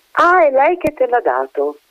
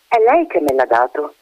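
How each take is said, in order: First: Put-on high, disbelieving echo of the child's words; mocking echo. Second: Said in the usual way. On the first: A narrator's reading. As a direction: throw the words back at her with open doubt. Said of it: "the lady echoes the child's words". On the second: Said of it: "the child's answer to the lady".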